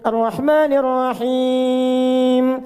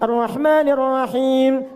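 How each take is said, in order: First: The final vowel is held about two seconds. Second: The final vowel is held about one second. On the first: "Anda baca empat" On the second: "boleh dibaca satu detik, dua harakat. Untuk bacaan cepat"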